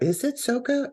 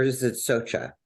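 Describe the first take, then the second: First: Soka said SOH-kuh, hard K in the middle; Soka with a K sound. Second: Socha said SOH-chuh, CH as in church; Socha with a CH sound. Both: Shown as a demonstration. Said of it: "Is it Soka or is it Socha?".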